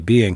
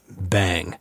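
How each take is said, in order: First: It is said with two syllables, like being. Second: It is said with one syllable, like bang. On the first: This is the usual scholarly reading. "they tend to just pronounce it being, B-E-Y-N-G, being" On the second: This is the text-to-speech reading. "this robot woman that read the book to me, said for B-E-Y-N-G, bang"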